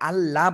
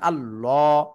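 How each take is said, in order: First: The double L is light and thin. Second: The double L is heavy and thick. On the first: The speaker calls it wrong. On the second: The speaker calls it right.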